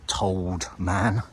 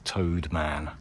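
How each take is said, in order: First: The first word has an L sound, like told. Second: The first word has no L sound, like toad. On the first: The speaker calls it wrong. "I think I pronounced it Told Man" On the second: The speaker calls it right. "Apparently it's pronounced more like Toad"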